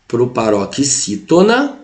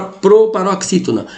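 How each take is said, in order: First: "proparoxítona" stretched out slowly, syllable by syllable; slow for repeating. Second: Said in the usual way. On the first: Shown as a demonstration. Teacher to students, a slow model to repeat. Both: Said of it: "repete comigo aí".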